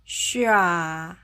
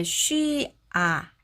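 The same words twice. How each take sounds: First: "쉬아" very slow but linked together; "쉬아" yavaş ve bağlantılı; joined shi-a. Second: "쉬아" broken into two parts; "쉬아" ayrı ayrı iki hece; split shi-a. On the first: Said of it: "해보면". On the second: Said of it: "분리해서 발음하지 않고요". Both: Shown as a demonstration.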